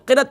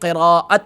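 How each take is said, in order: First: The word is said with two syllables. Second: The word is said with three syllables. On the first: The speaker calls it wrong. "असल क़िरत नहीं" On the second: The speaker calls it right. "बल्कि क़िराअत है"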